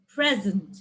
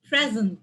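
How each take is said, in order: First: The stress is on the first syllable. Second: The stress is on the first syllable.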